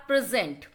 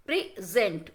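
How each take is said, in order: First: Said in the usual way. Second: "present" broken into two separate syllables. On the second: Shown as a demonstration. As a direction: split "present" into two beats with a gap. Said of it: "the words are completing into two, uh, syllables".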